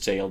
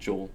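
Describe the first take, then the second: First: The vowel sounds like the one in 'day'. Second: The vowel sounds like the one in 'go'. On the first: "I know it's jail" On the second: "but I pronounce it Joel"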